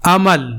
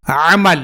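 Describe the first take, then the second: First: عمل opened with a light glottal hamza a; عمل as hope, plain hamza; hamza amal. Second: عمل opened with a pressed throaty ع; عمل as deed, pharyngeal ع; ain amal. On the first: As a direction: say عمل with a simple glottal a start. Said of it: "حمزہ زبر ا،". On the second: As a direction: squeeze the start of عمل from mid-throat. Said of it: "عین زبر ع،". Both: Shown as a demonstration.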